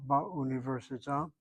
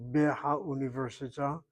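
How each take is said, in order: First: "ba università" with the hey dropped, ba joined on; contracted article form. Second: "be ha università" with be and ha as two syllables; uncontracted error form. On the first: Teacher showing students how bet swallows the hey, correctly contracted. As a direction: say "ba università", one "ba" replacing be-ha. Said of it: "the bet comes along, strikes out the hey". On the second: Teacher warning students against the error, uncontracted "be ha". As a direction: keep "be ha" separate before "università". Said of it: "Don't make the error by saying".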